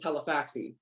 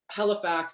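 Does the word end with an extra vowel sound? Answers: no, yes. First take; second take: yes; no. First: An extra vowel is added after the x. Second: The word ends on the x sound.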